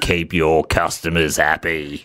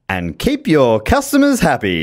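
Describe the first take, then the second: First: It is said in a threatening tone. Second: It is said in a light, positive tone.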